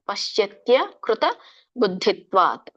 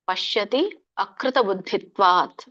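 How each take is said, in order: First: The words are run together into one flow. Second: The words are split apart as separate words. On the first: "but ಕೂಡಿ ಹೇಳಿ" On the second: "ಇದನ್ನ ಬಿಡಿಸಿದಾಗ ... ಮೂರು ಪದಗಳಾಗುತ್ತೆ"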